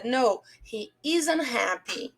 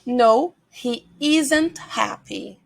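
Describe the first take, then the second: First: "isn't" said as "izn", T almost silent; slow, softer model with the T of "isn't" swallowed; dropped T in isn't. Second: Slow, fully spelled-out "isn't" with its T; careful T in isn't. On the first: Teacher shows students how to pronounce it, T of "isn't" barely there. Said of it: "esse T a gente quase não pronuncia". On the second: Teacher models the full sentence for students, careful and slow. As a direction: say "isn't" slowly and firmly, T still there. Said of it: "ele tem um som muito fraquinho". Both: Shown as a demonstration.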